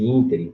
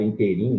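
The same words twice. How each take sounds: First: Ínterim stressed on IN; first-syllable stress. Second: Inteirinho with the stress late, on RI; misplaced stress. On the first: Teacher giving the correct form, ínterim stressed on IN. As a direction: say ínterim as IN-te-rim. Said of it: "proparoxítona". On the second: Teacher showing a wrong form, inteirinho stressed late on RI. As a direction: say inteirinho with weight near the end. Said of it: "eu falo". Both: Shown as a demonstration.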